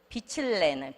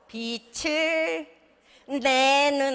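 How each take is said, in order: First: The consonant after 을 sounds like an L. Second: The consonant after 을 sounds like an N. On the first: The speaker calls it right. "을내가 돼요" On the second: The speaker calls it wrong. "빛을 내는 아니고"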